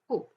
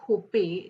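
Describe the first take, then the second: First: The word ends cleanly on the p. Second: An extra vowel sounds after the final p. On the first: The speaker calls it right. "काय म्हणतो H O P होप" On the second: The speaker calls it wrong. "आपण होपे किंवा असं काय म्हणतो का नाही"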